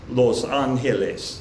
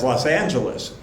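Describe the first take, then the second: First: It is said with a Spanish pronunciation. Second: It is said with an English pronunciation. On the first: "In Spanish" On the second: "different than the English pronunciation"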